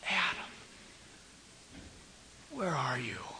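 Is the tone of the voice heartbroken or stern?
heartbroken. It is said in a moaning, heartbroken tone. The speaker is grieving over a lost loved one. The speaker calls it right. "it was a cry. It was a moan of a broken-hearted papa"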